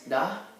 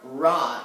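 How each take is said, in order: First: It starts with a quick D-like tongue flick. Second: It starts with an English-style R sound. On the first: The speaker calls it right. "little tongue flick kind of thing" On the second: The speaker calls it wrong. "it's not ra"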